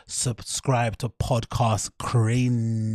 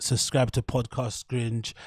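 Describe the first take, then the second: First: Drawn-out slow plug; very slow emphatic plea. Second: Said in the usual way. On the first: Shown as a demonstration. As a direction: draw out Podcast Cringe very slowly.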